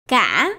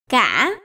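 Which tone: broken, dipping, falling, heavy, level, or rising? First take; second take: broken; broken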